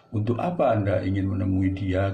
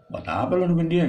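First: Said in the usual way. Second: High, loud street-slang question; casual slang. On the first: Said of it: "Tuh bahasa harfiahnya". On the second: Shown as a demonstration. Teacher showing students the slangy way to ask. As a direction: toss it off like a mate. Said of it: "Gitu bahasa gaul".

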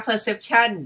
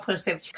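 First: Perception said very slowly, each syllable drawn out; slow savoring of a new word. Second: Said in the usual way. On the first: Shown as a demonstration. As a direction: linger over perception like a favourite word. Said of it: "คำนี้ชอบนะ". (พูดคำว่า perception ช้าๆ ลากทุกพยางค์) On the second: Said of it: "เขาใช้คำว่า perception".

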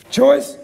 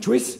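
First: Said in the usual way. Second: CHOICE said with a New Zealand accent; lightly mimicked New Zealand "choice". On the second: Shown as a demonstration. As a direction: put a Kiwi vowel in "choice". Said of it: "you're from New Zealand".

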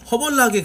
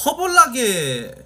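First: Said in the usual way. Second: 허벌나게 drawn out slowly, syllable by syllable, a bit higher; slow dialect demo. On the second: Shown as a demonstration. 시청자들에게 전라도 단어를 보여주며, 허벌나게를 천천히 또박또박. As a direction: say 허벌나게 slowly like showing off a Jeolla word. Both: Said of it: "전라도 사투리예요".

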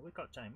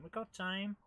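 First: Said in the usual way. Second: Higher, lightly voiced little mouse; attempted cartoon mouse. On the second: Player spurring himself on, attempted mouse voice. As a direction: lift it into a mouse-like chant. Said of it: "I can't do the mice".

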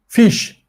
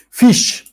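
First: Said in the usual way. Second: Fish said high and clear as the model /fiʃ/; model pronunciation. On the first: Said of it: "teacher repeats word". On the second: Shown as a demonstration. Teacher models Fish for the class, clear and high. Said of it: "teacher models word".

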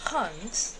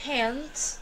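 First: "Hand" with the vowel from the back of the throat; British hand. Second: "Hand" with the vowel at the front of the mouth; front, open American "Hand". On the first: Teacher demonstrating the British back vowel in "Hand". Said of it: "Vai ser pronunciado da seguinte maneira". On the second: Teacher demonstrating the American vowel in "Hand" to students. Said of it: "Prestem atenção quando eu falar". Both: Shown as a demonstration.

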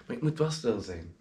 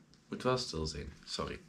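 First: Soft. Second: Much softer and lower, almost gone; very hushed. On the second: Reminding himself of the late hour, very hushed. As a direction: drop to a near-silent murmur. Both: Real, not acted.

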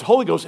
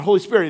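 First: "Holy Ghost" with the weight on HO; stress on HOLY. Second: Said in the usual way. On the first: Shown as a demonstration. Pastor showing the Southern "Holy Ghost" stress. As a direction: punch the first syllable of "Holy". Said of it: "the emphasis on the first syllable". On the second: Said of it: "It's not Holy Spirit".

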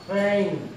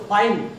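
First: "Fine" leaning towards "fain"; A-glide in "fine". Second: Counter-example "fine", vowel as in "eye"; "fine" with a wide ah-ee vowel; wrong "fine". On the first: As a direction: say "Fine" with an ay vowel, close to "fen". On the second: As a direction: say "fine" with an open eye glide. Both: Shown as a demonstration. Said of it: "Don't say fine".

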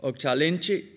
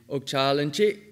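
First: Okchalinchi with the stress moved onto LIN; question-final stress. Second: Okchalinchi with the last syllable CHI lifted high; statement-final stress. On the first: Lecturer showing question-final stress, LIN stressed. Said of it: "depending on whether it's phrase internal, question final". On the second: Lecturer showing statement-final stress, CHI stressed. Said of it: "or statement final". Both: Shown as a demonstration.

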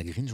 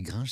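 First: "Gringe" with an "ee" vowel and a sounded n; "Gringe" as "grinn-je", without the nasal vowel; wrong pronunciation shown. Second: "Gringe" with a nasal French "in"; "Gringe" as "grain-zh", n melted into the vowel; right pronunciation shown. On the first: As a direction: say "Gringe" like "green-zh". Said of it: "On dit pas Gringe". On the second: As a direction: say "Gringe" rhyming with "linge". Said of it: "on dit Gringe, c'est ça?". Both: Shown as a demonstration.

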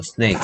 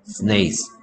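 First: 스네이크 ending in a clear K; correct pronunciation. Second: 스네이스 with a final S sound; wrong pronunciation. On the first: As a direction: say 스네이크 with the final K. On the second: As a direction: say 스네이스 ending in S. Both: Shown as a demonstration. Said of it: "스네이스가 아니고요".

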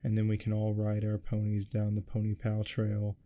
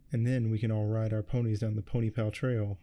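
First: Said in the usual way. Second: A touch of teary excitement, words tumbling; excited blubbering. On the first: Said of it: "We follow that fucking cat". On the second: Acted. Pawnee gushing to her friends about ponies, mildly excited blubber. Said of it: "Pawnee blubbered excitedly".

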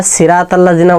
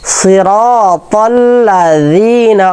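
First: সিরাতাল্লাযীনা with a plain z; সিরাতাল্লাযীনা, harsh z; wrong z sound. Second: সিরাতাল্লাযীনা with a soft th-like z; সিরাতাল্লাযীনা, gentle soft z; soft dhal. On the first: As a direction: say সিরাতাল্লাযীনা with a buzzy z. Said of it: "বলবো না". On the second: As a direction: soften the z in সিরাতাল্লাযীনা. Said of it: "জি নরম". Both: Shown as a demonstration.

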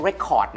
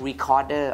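First: "record" as the two-syllable noun, no final -der; pronounced record. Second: "recorder" with the middle syllable stressed and final -der; pronounced recorder. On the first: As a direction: say "record" like the vinyl disc, REC-ord. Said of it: "ไม่ใช่ record นะ". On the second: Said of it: "ออกเสียง recorder นะ ไม่ใช่ record นะ". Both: Shown as a demonstration.

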